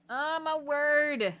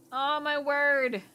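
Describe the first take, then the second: No difference in how they are said.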